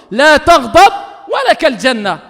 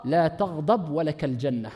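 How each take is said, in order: First: Loud, slow, measured Arabic; forceful preacher's declaration; emphatic proclamation. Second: Low, soft, slow Arabic recitation; hushed, unhurried, tender quotation; gentle quoted counsel. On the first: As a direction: proclaim it firmly, word by word. Repeats the answer as a command. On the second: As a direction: give the counsel quietly and slowly. Gently quotes the Prophet's answer. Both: Retold or imitated.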